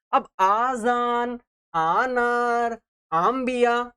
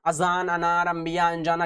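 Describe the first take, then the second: First: Slow आजान, आनार, आम्बिया with the opening आ drawn far out; wrongly stretched alif. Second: अजान, अनार, अंबिया with a short clipped opening अ; quick, unstretched अ; short alif, said quickly. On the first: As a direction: overlong first vowel, the wrong way. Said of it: "ऐसा तो हम लोग नहीं पढ़ते ना". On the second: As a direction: read briskly, no drawing out. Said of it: "जल्दी जल्दी पढ़कर खत्म करते हैं". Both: Shown as a demonstration.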